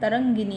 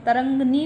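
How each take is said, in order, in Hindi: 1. 'tarang' के बाद 'i' स्वर सुनाई देता है। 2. 'tarang' के बाद कोई 'i' स्वर सुनाई नहीं देता। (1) "तरंगिनी है" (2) "तरंगनी नहीं है"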